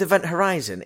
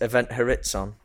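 First: Horizon is said with its usual pronunciation. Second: Horizon is said to sound like chorizo. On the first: The speaker calls it right. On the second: The speaker calls it wrong.

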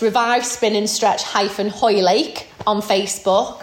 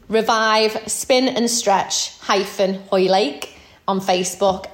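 First: It is said at normal speed. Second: It is said slowly.

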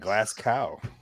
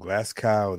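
First: It is said with an American accent. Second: It is said with a local Scottish accent. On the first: "the Americans say it like that" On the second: "they say it"

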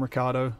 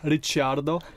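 First: The name is said with an Australian pronunciation. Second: The name is said with an Italian pronunciation. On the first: "Riccardo is the more, I would say, Australian pronunciation" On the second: "or as the Italians would say"

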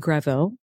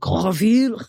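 First: The name is said with an everyday English pronunciation. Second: The name is said with a traditional French pronunciation. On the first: This is the form the name's owner uses day to day. "I go by [name]" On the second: This is how the French name is traditionally pronounced. "if it was traditionally pronounced, it'd be like Greville"

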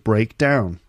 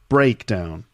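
First: The stress falls on 'down'. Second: The stress falls on 'break'. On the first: It is a verb: to stop working. "when it's a verb, the second part is stressed" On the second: It is a noun: a failure or collapse. "when it's a noun, the first syllable is stressed"

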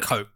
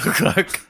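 First: The vowel is long, rhyming with smoke. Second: The vowel is short, rhyming with lock. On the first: The speaker calls it right. "how do we say it?" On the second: The speaker calls it wrong. "don't say Cock"

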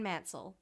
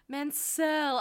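First: The surname is said plainly, as it is written. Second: The surname is said in a fancier-sounding way. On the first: The speaker calls it right. "You say it the way it's spelled" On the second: The speaker calls it wrong. "Stop trying to make it fancy"

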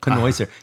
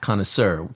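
First: The word has a Yiddish-style pronunciation. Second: The word has its usual standard pronunciation. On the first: "we gave it a distinctly Yiddish pronunciation" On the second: "not connoisseur"

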